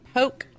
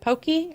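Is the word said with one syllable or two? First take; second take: one; two. First: It is said as one syllable. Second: It is said as two syllables. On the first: "Like poke" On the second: "they pronounce it pokey"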